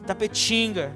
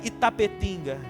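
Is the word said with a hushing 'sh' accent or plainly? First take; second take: hushing; plain. First: It is said in an accent with hushing sounds. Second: It is said in a plain, unmarked accent.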